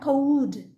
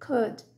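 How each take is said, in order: First: The L sound is pronounced in the word. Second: The L sound is silent in the word. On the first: The speaker calls it wrong. "Não é could" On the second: The speaker calls it right. "é could, could. É quase como se o, o O, né? Quase como se o O e o, e o L sumissem"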